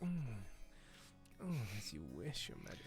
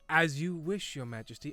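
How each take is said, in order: First: It is said in a breathy, seductive voice. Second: It is said in a posh, upper-class voice.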